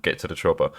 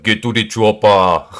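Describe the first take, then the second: First: Said in the usual way. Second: Loud Austrian-accented action hero; Arnold. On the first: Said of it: "Arnold's accent is real difficult". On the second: Shown as a demonstration. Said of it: "Arnold's accent is actually really difficult to copy".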